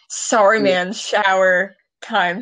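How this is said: It is read in an odd put-on voice. The speaker calls it wrong. "I read it like a weird boomer"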